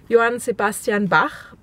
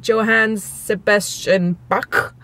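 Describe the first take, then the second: First: The name is said with German pronunciation. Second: The name is said with English-style pronunciation. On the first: The speaker calls it right. "how to pronounce them correctly in German" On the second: The speaker calls it wrong. "it always ends like Johann Sebastian Bach or something. That's not how it's pronounced"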